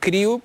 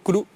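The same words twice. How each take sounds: First: It is said with an English pronunciation. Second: It is said with an Andalusian accent.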